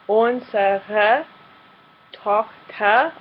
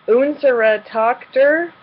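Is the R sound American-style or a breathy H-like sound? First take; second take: H-like; American-style. First: The R sounds are soft and breathy like H. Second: The R sounds are hard American-style R sounds. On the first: The speaker calls it right. "now replacing the R's that we see with an H sound" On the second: The speaker calls it wrong. "like a typical American English native speaking German learner would"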